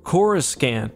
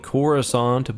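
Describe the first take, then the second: First: The second C sounds hard, like a K. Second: The second C sounds soft, like an S. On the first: "specifically with a second hard C" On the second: "not pronounced like Coruscant"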